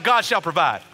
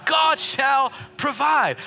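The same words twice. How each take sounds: First: Said in the usual way. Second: Loud, higher, slow drawn-out God shall provide; preached shout. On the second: Shown as a demonstration. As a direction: belt it out to the congregation. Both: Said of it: "someone just shout".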